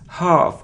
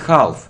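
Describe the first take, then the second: First: The vowel is a long ah. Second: The vowel is short. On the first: The speaker calls it right. "It's long sound ah" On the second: The speaker calls it wrong. "not half"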